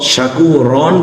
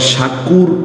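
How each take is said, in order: First: The word ends with a nasal 'an' sound. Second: The word ends abruptly on a consonant. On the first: "শাকুরন বলবো না" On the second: "আবার শাকুর ও বলবো না"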